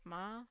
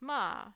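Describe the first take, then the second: First: The pitch rises from low-mid to high-mid. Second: The pitch falls from top to bottom. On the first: "it's rising from this half low to half high" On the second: "this big fall um, across the entire range from level five to level one"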